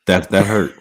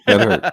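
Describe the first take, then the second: First: Said in the usual way. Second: High mock-hurt cry; mock wounded. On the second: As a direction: act wounded, jumping way up. [name] repeats the line, teased.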